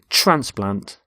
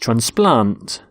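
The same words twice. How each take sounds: First: The stress is on the first syllable. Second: The stress is on the second syllable. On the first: It is used as a noun. "we stress the first syllable in a noun ... So the noun is transplant" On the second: It is used as a verb. "and the second in a verb ... But with a verb, it's transplant"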